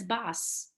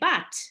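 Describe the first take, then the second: First: It ends with an S sound, Ashkenazi style. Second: It ends with a T sound, Sephardic style.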